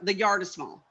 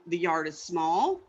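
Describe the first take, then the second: First: The voice falls at the end. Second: The voice rises at the end. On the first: It is a plain statement. "Right now, we got a statement" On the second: It asks the other person to explain. "and then zip"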